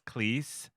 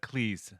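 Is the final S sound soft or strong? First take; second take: strong; soft. First: The final S sound is strong and hissed. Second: The final S sound is softer and less hissed. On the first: This is how Americans say the name. "Americans um, pronounce his name with a strong S" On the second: This is how the name's owner prefers it. "he prefers it with a Cleese"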